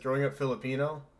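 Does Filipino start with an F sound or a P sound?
F. Filipino starts with a plain F sound. "you would see it says"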